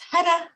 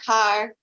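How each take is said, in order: First: The R is a soft D-like tap. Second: The R is a hard English R. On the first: The speaker calls it right. "it's hada, hada, hada. ... It is a soft D" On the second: The speaker calls it wrong. "They're like har, har, har. And I'm like, oh, goodness"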